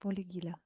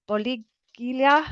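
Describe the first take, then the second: First: "Boligila" repeated softly as one run, ending in -la; corrected pronunciation. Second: "Boligilia" sounded out slowly, rising at the end; hesitant mispronunciation. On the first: Host trying out the co-host's version, corrected pronunciation. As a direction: echo "Boligila" quietly, without the halting break. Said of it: "how would you pronounce it". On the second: Host attempting a viewer's unfamiliar name, hesitant mispronunciation. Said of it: "I'm gonna hash that name". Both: Real, not acted.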